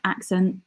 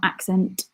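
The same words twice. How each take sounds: First: The final T sound is dropped. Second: The final T sound is pronounced. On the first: "I tend to drop T's, like accent" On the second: "not accent"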